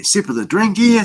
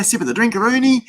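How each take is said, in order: First: Higher, playful lilt on drink here; playful sing-song. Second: Higher again, goofy stretch on drinkaroonie; silly drinkaroonie. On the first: Host sipping a drink on stream, playful lilt. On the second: Host jokingly naming his drink, goofy high lilt. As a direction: ham up the silly word drinkaroonie. Playful drink sip on stream. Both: Real, not acted.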